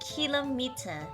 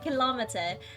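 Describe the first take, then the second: First: It sounds like kilo plus meter joined. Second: It does not sound like kilo plus meter. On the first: This is how the speaker used to say it. "I used to pronounce it kilometer because it was like kilo and meter combined" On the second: This is how other people say it. "I kept hearing people call it kilometer"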